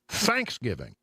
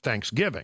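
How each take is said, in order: First: The stress is on the first syllable. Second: The stress is not on the first syllable. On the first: This is how Texans say it. The speaker calls it wrong. "another one that we do wrong" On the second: This is the standard way to say it. The speaker calls it right.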